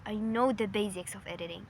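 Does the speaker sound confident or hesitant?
confident. It is said firmly and without hesitation. The speaker is sure of their skills. The speaker calls it right. "what if she said it this way?"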